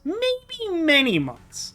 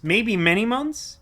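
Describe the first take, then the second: First: "Maybe" held long and very high, then falling; exaggerated stretch. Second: "Maybe many months?" slowly, rising at the end; questioning. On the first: Streamer owning up to a long break, exaggerated stretch. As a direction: draw out "Maybe" high, let "months" drop. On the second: Streamer guessing how long since last playing, questioning. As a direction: let "months" rise as a slow question. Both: Real, not acted.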